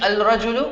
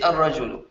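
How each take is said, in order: First: The L sound is clearly pronounced before the R. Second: The L merges into a doubled R sound. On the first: The speaker calls it wrong. "instead of saying al-rajulu" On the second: The speaker calls it right. "we'll say ar-rajulu"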